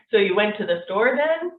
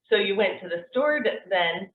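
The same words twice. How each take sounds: First: Statement turned into a question, rising on "then"; question intonation. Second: Said in the usual way. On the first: Shown as a demonstration. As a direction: lift "then" at the end as if asking. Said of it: "it can sound like one". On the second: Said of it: "doesn't have to be a question".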